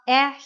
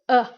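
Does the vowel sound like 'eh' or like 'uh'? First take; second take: eh; uh. First: The vowel is an open 'eh' sound. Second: The vowel is a neutral 'uh' sound. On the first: The speaker calls it wrong. "it's not eh here" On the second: The speaker calls it right. "It's more like uh in water"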